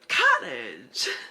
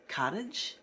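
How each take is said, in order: First: It is said loudly and thrilled. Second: It is said quietly and meekly.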